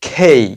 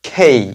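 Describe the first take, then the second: No difference in how they are said.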